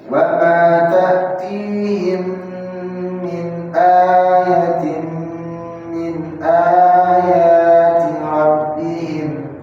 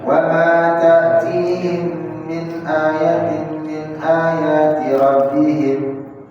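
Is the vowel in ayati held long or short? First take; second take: long; short. First: The vowel is held for two beats. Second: The vowel is held for one short beat. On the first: The speaker calls it right. "jadi dua" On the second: The speaker calls it wrong. "Satu harokat"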